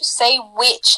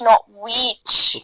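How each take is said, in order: First: The vowel is short, like in 'it'. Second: The vowel is long, like an E sound. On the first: The speaker calls it right. "there's no E, there's just it" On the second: The speaker calls it wrong. "there's no E"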